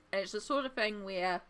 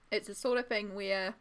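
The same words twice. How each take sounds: First: Talking while chewing; words around a bite of food; mouth full. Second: Said in the usual way. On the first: Real, not acted. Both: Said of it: "I'm eating".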